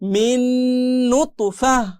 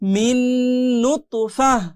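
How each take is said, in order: The two takes are said the same way.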